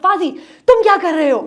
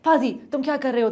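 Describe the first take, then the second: First: It is said loudly, almost shouted. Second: It is said at a normal, quieter volume. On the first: "उठा के बोले" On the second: "अब मैं अगर इस तरह बोल रही थी"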